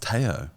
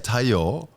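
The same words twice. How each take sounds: First: The name is said with Australian pronunciation. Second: The name is said with Japanese pronunciation. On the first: "it's it's Tayo" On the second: "whenever you say Tayo"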